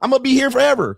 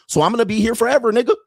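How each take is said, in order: First: Gleeful taunt. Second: Taunting. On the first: Host taunting his critics, gleeful and high. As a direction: crow it like you already won. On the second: Taunting critics, high and loud. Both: Real, not acted.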